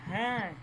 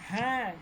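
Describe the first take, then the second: No difference in how they are said.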